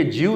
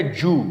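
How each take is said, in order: First: جیو as "jee-oo"; wrong pronunciation. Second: جو as "joo"; one long oo in جو; no glide after the j in جو; correct pronunciation. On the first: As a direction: put a y glide in جیو. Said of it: "یہ جیو نہیں ہے". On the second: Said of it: "یہ اصل میں ہے". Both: Shown as a demonstration.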